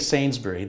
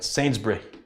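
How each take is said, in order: First: The vowel in the final syllable is fully pronounced. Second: The vowel in the final syllable is dropped. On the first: The speaker calls it wrong. "Don't say Sainsbury. That's not right" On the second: The speaker calls it right. "Take the U out"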